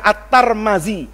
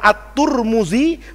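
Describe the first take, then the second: First: The name is said with a vowels throughout. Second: The name is said with u vowels throughout. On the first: "boleh dibaca At-Tarmazi" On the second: "boleh dibaca At-Turmuzi"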